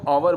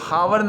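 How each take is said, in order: First: It begins with a vowel, no h sound. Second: It begins with an audible h sound. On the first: The speaker calls it right. "उसको आवर बोलते हैं" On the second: The speaker calls it wrong. "हावर न बोलकर"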